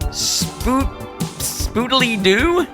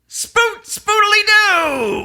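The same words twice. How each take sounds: First: It is said quietly and hesitantly. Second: It is said loudly, as a shout. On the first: The speaker calls it wrong. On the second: The speaker calls it right.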